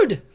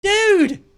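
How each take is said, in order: First: "Dude!" yelled very high and very loud; redone louder shout. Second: High, loud "Dude!" as a first try; loud call. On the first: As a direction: belt "Dude!" out at full force. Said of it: "I gotta do that right". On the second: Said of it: "Wait, I gotta do that right". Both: Shown as a demonstration.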